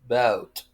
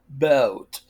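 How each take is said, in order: First: It is said in a British accent. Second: The same.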